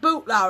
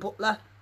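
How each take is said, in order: First: The first vowel sounds like the vowel in 'boot'. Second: The first vowel sounds like the vowel in 'but'. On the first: "Is it bootlar or is it butler?" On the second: "Is it bootlar or is it butler?"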